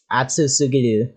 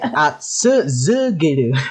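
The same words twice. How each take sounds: First: It is said without any z sound. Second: It is said with a z sound. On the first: The speaker calls it wrong. "you're saying it wrong" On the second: The speaker calls it right. "It's z"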